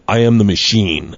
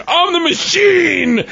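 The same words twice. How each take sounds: First: Low, slow announcement; slow, lowered, matter-of-fact quote; deadpan declaration. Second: High, drawn-out mock shout; stretched high-pitched proclamation; triumphant yell. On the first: Retold or imitated. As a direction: state it solemnly, dropping the pitch. Retold deadpan declaration in doorway. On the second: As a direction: cry it out long and high. Retold triumphant yell to gangster.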